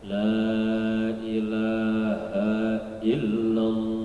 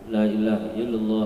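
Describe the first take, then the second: First: It is said slowly. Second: It is said fast.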